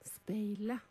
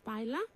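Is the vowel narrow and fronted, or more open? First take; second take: fronted; open. First: The vowel is narrow and fronted. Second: The vowel is more open and less fronted. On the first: "og «speile»" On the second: "I stedet for «speile»"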